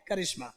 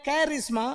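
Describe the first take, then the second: First: करिश्मा with a short first क, "kuh-rish-ma"; as it is spoken. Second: करिश्मा with the first syllable as कै, "kai-rish-ma"; as it is spelt. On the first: Teacher showing students how it is said, spoken pronunciation. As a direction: say करिश्मा with a light schwa in the first syllable. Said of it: "बोलते हैं". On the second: Teacher showing students how it is written, spelling pronunciation. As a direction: read करिश्मा by its spelling, opening on an open "kai". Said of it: "लिख रहे हैं". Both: Shown as a demonstration.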